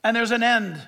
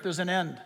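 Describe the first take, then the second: First: Said in the usual way. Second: There's an end, dropped much softer and lower; hushed repeat. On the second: Real, not acted. Preacher warning his audience, hushed solemn repeat. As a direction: let There's an end fall away to a hush. Repeats line, then drops to hush.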